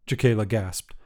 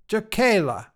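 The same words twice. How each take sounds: First: Said in the usual way. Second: Put-on grandmother calling a child's name from the doorway; higher call of Jacayla with a falling end; sharp call to get her attention.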